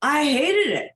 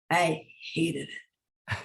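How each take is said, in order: First: "hated" punched high and loud; loud, high-pitched, exasperated emphasis on "hated"; emphatic loathing. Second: Low-key, drawn-out "hated"; quiet, weighty admission; slow, deliberate loathing. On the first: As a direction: burst out with big stress on "hated". Repeats it emphatically after laugh. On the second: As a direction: say it slowly with a pause before "hated". Dwells on hated fashion job. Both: Real, not acted.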